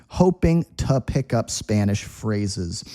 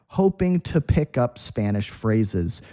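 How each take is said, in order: The two takes are said the same way.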